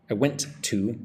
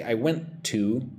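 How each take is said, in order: First: Went to run together; "I went to" blended into one flow; linked words. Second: Went and to said apart; "I went to" with each word separate, slowly; separated words. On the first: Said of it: "It's like". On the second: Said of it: "I don't say". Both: Shown as a demonstration.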